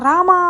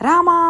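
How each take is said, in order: Both takes have the same delivery.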